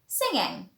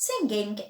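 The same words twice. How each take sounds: First: It ends in a nasal sound without g. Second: A hard g sound is released at the end. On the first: The speaker calls it right. "it is pronounced singing" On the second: The speaker calls it wrong. "it's not pronounced singing"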